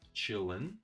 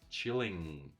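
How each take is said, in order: First: The word ends in a schwa and n. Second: The word ends in a full ng sound. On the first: "this is schwa and n" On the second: "pronounce it fully"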